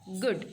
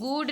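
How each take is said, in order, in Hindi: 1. स्वर छोटा है, जैसे 'book' में। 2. स्वर लंबा है, जैसे 'food' में। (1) "जी डबल ओ डी उसको बोलेंगे गुड" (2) "इसको हम गुड नहीं बोल सकते हैं"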